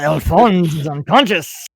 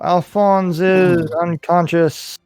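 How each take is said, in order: First: It is said with more energy and relish. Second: It is said flatly with little energy.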